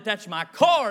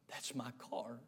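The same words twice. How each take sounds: First: Excited recognition. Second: Very low, hushed and tearful; tearful recognition. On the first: Old man rejoices at found car. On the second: Old man finding his lost car, hushed tearful recognition. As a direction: barely voice it, overcome. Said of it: "tears streaming down his face". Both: Retold or imitated.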